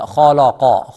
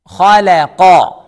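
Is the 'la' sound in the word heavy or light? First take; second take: heavy; light. First: The la sound is heavy and full-mouthed. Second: The la sound is light, said with a smile. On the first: The speaker calls it wrong. "Don't say khalaqa" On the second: The speaker calls it right. "La is a light letter, smile"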